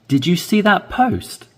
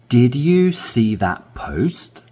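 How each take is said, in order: First: It is read at a natural, faster speed. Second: It is read slowly and carefully. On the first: "then I will read at a natural speed" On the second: "I will read slowly"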